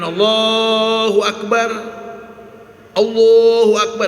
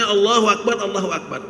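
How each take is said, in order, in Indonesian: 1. Kedua frasa itu dipisahkan oleh jeda. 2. Kedua frasa itu disambung tanpa jeda. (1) "jangan Allahu Akbar, Allahu Akbar dipisah"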